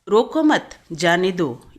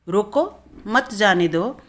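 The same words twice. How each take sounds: First: The pause comes right after 'mat'. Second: The pause comes right after 'roko'.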